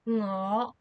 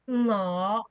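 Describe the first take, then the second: First: The word begins with a nasal ng sound. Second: The same.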